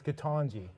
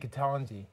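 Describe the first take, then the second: First: The stressed vowel is an open 'ah' sound. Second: The stressed vowel is a flat 'a' sound. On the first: This is the pronunciation a doctor gave. "I'm being told by a medical doctor it's Ketanji" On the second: This is how Canadians would say it. "in Canada, we would say Ketanji, like taco or pasta"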